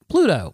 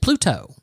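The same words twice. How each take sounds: First: The T is said softly, not as a hard T. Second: The T is said as a hard, crisp T. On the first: The speaker calls it right. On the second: The speaker calls it wrong.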